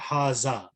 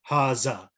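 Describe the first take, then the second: Both takes have the same delivery.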